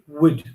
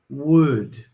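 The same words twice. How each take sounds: First: It is short, with a reduced weak vowel. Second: It is fully pronounced, with a strong vowel. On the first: "short, weak form" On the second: "a strong form, where we really pronounce the whole word"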